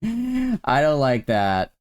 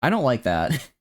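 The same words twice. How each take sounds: First: Laughing, slow rerun of I don't like that; amused drawn-out I don't like that. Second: Said in the usual way. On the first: Shown as a demonstration. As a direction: chuckle through it slowly.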